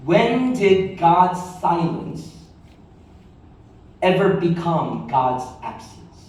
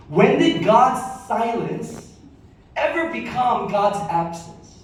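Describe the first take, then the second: First: Slow emphatic question. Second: "When did God's silence" slow and lifted, "ever" leaned on; repeated slower and higher. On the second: Pastor repeating key line for congregation taking notes, slow and lifted. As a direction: say it again slower for note-takers. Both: Shown as a demonstration. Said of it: "write this down".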